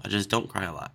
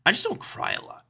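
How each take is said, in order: First: Said in the usual way. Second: High, whispered "I just don't cry a lot". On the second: Pretend. Host admitting he rarely cries, high whisper. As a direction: squeak it out breathy and high. Repeats line differently.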